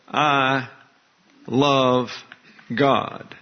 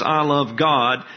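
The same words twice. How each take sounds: First: "I", "love", "God" each set apart by long pauses; I love God said slowly. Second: "I love God" slowed, with the weight falling on "God"; stress on God. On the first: Preacher to congregation, slowly spaced words with weight on "God". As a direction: lay out "I", "love", "God" one by one with pauses, landing on "God". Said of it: "when the emphasis is on God". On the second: Preacher showing the believer's words, emphasis on "God". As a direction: press on "God", let "I" stay light. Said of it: "the emphasis is on the object". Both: Shown as a demonstration.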